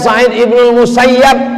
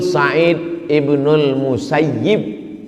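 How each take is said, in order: First: The last syllable has an a vowel. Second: The last syllable has an i vowel. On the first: The speaker calls it wrong. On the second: The speaker calls it right. "Yang betul"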